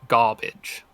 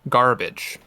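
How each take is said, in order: First: The R after the first vowel is silent. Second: The R after the first vowel is pronounced.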